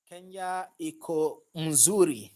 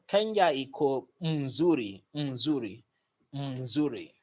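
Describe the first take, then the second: First: "Kenya iko mzuri" said slowly and carefully; careful Swahili attempt. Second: "mzuri" repeated slowly, practising; repeated Swahili practice. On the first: Reading the viewer's Swahili aloud, slow and careful. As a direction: sound it out slowly, testing it. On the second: Practising the viewer's phrase, slow repeats. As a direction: drill the word mzuri. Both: Shown as a demonstration. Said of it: "Did I call that right?".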